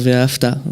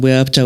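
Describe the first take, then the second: First: The word begins with a v sound. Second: The word begins with a w sound. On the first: This is the other common pronunciation. "ou dire" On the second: This is the speaker's own traditional pronunciation. "moi par exemple, je vais dire"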